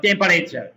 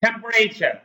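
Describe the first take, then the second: First: "temperature" with a full vowel after the p, tem-pa-re-char; wrong pronunciation. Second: "temperature" squeezed to three syllables, tem-pre-cher; correct pronunciation. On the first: Teacher shows what British and Americans don't say, mispronounced "temperature" as tem-pa-re-char. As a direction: say "temperature" in four syllables. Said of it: "কেউ কিন্তু এটাকে টেম্পারেচার বলে না".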